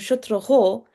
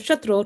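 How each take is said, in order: First: The ending of the word is drawn out. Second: The ending of the word is short. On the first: Someone whose enemy is Indra. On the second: Someone who kills Indra.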